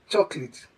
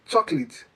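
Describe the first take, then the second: The two takes are said the same way.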